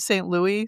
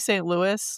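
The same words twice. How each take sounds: First: Louis is pronounced in an unfamiliar, non-American way. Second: Louis is pronounced in the usual American way. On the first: The speaker calls it wrong. "I've never heard Saint Louis" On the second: The speaker calls it right. "so you may wanna say Saint Louis"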